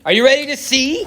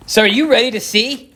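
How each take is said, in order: First: Higher, laughing tease of are you ready to see; giddy higher repeat of ready; excited. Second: Said in the usual way. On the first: Acted. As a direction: pump up the viewers with a laugh. Teasing build-up, repeated higher.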